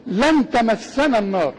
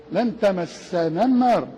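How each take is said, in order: First: "لن تمسنا النار" recited slowly, alif of تمسنا dropped; slow careful recitation of "لن تمسنا النار"; Quran recitation demo. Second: Slow recited "لن تمسنا النار" as in the Quran; Quran recitation demo. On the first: Sheikh teaching students, slow "لن تمسنا النار". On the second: Sheikh repeats the verse to students, slow recitation. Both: Shown as a demonstration. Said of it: "مع العلم فيها ألف".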